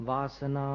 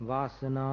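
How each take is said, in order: The two takes are said the same way.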